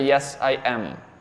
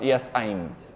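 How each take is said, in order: First: I am is said as two full words. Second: I am is contracted into one syllable. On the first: The speaker calls it right. "as an answer, yes, I am" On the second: The speaker calls it wrong. "Not yes, I'm"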